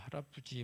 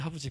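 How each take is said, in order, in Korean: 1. 다 말해요. 음절을 하나하나 다 말해요. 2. 줄여서 말해요. 음절이 빠져요. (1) "조금씩 발음이 좋아지고 있어요" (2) "발음이 안 돼서"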